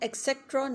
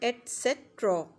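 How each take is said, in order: First: The word begins with an 'ek' sound. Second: The word begins with an 'et' sound. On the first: The speaker calls it wrong. "इसको हम एक्सेट्रा नहीं कहेंगे" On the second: The speaker calls it right. "बल्कि हम इसे कहेंगे एटसेट्रा"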